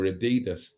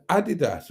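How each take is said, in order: First: Adidas stressed on the middle syllable; alternative pronunciation. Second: Adidas stressed on the first syllable; first pronunciation variant. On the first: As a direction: say Adidas as a-DEE-das. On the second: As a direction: say Adidas as AD-i-das. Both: Shown as a demonstration. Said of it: "Adidas or Adidas".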